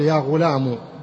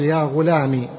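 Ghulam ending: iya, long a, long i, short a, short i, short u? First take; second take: short u; short i. First: The word ends in a short u sound. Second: The word ends in a short i sound. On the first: The speaker calls it wrong. "تحذف الياء وتضع بدل منها ضمة" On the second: The speaker calls it right. "تحذف الياء وتضع بدلا منها كسرة"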